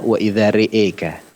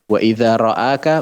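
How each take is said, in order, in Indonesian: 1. Vokal setelah 'r' condong ke e. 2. Vokal setelah 'r' adalah a terbuka.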